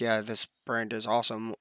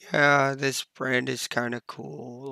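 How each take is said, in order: First: It is said flatly, like a robot. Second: It is said in a sad, downbeat way.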